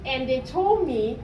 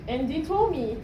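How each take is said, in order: Both takes have the same delivery.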